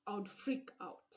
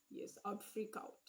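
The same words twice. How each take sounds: First: Said in the usual way. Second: Whispered aside. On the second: Real, not acted.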